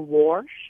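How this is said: It is said in a Midland accent.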